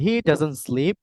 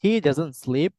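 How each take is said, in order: The two takes are said the same way.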